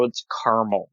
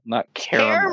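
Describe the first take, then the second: First: CARAMEL said low in two syllables, "CAR-mul"; northern caramel. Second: CARAMEL pitched high, opening "CARE"; rejected caramel pronunciation. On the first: A northerner insisting on their own word, caramel said "CAR-mul". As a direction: say caramel as "CAR-mul", middle vowel dropped. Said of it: "I'm a northerner". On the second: A northerner rejecting the other version, caramel said high as "CARE-a-mel". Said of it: "so it's caramel, not caramel". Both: Shown as a demonstration.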